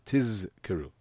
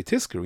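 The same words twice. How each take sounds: First: "Tizkeru" with a long buzzing Z; clear Zayin. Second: "Tizkeru" said as tiskeru, with an S; unclear Zayin. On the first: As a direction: separate the voiced Z from the K in "Tizkeru". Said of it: "You don't hear the Zayin". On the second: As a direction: turn the Z of "Tizkeru" into a hissed S. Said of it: "you know what that sounds like". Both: Shown as a demonstration.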